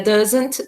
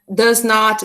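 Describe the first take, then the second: First: It is said as one contracted word. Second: It is said as two separate full words.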